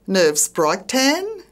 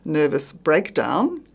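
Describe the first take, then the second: First: It uses the Australian nonstandard pronunciation. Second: It uses the standard pronunciation. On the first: The speaker calls it wrong. "avoid strine" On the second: The speaker calls it right.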